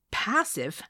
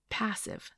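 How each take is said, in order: First: Higher, louder, indignant echo; too loud. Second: Said in the usual way. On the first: A narrator's reading. Woman echoing her date's word, too loudly. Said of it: "too loudly".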